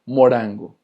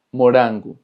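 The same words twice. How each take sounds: First: Morango said with a final o, "mo-RAN-go", tapped r; Spanish-style morango. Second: Morango said "mo-RAN-goo", tapped r, final oo; Portuguese morango. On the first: Teacher first saying morango the Spanish way, final o. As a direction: morango ending on a clear o. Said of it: "exactamente igual que en español". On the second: Teacher giving the Portuguese morango for students, final oo. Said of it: "como una R". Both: Shown as a demonstration.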